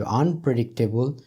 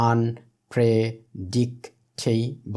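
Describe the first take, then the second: First: Said in the usual way. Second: "unpredictable" broken into five slow, separate syllables. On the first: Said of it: "এখানে রয়েছে unpredictable". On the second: Shown as a demonstration. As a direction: say "unpredictable" slowly, pausing after each syllable for counting. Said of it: "যদি একাধিক syllable".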